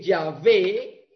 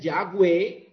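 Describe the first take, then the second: First: The middle consonant is a V sound. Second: The middle consonant is a W sound.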